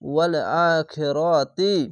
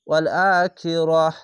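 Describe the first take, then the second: First: The last word ends in a ti sound. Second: The last word ends in an h sound. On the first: The reading goes on without a stop. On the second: The reading stops at this word.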